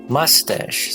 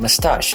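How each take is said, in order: First: The stress is on the first syllable. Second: The stress is on the second syllable. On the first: "in U S, they would say mustache. So the first syllable should be stressed" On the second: "in U K, they would say mustache. The second syllable should be stressed"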